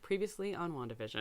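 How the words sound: It is said in a flat, unenthusiastic voice.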